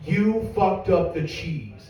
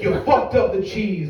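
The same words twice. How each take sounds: First: Slow, deliberate blame in an even pitch; slow accusation. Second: Brisker, mildly heated repeat; insistent accusation. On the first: Customer confronts manager over burgers, slow accusation. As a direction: spell out the offence word by word. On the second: Customer insists to manager about cheese, mildly heated. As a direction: throw the blame back harder. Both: Acted.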